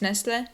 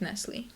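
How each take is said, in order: First: It is said the original European way. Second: It is said the American way. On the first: "I think correctly it's Nestle" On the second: "Americans will pronounce it Nestle"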